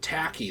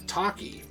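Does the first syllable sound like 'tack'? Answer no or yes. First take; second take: yes; no. First: The first syllable sounds like 'tack'. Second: The first syllable does not sound like 'tack'. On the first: The speaker calls it wrong. "some people said it was supposed to be ta- tacky, like tachyon" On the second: The speaker calls it right. "they say it in the game and it's Taki"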